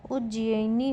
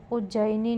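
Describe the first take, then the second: First: उज्जैनी said as uj-ji-ai-ni; correct pronunciation. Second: उज्जैनी said as uj-jai-ni; wrong pronunciation. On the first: Teacher giving the correction, उज्जैनी as uj-ji-ai-ni. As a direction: split the middle of उज्जैनी into "ji-ai". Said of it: "होगा". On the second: Teacher showing a spelling error, उज्जैनी as uj-jai-ni. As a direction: say उज्जैनी with one "jai" syllable. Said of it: "नहीं होगा". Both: Shown as a demonstration.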